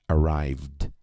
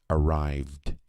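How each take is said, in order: The two takes are said the same way.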